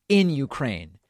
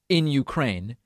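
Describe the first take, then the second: The two takes are said the same way.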